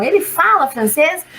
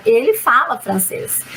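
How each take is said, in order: First: ELE FALA FRANCÊS rising at the end; question intonation. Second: ELE FALA FRANCÊS lower, falling to the end; statement intonation. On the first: Teacher translating the question, "ele fala francês" rising. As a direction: ask "ele fala francês" with a final lift. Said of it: "Entonação". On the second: Teacher translating the affirmation, "ele fala francês" falling statement. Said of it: "entonação diferente que indica uma afirmação". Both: Shown as a demonstration.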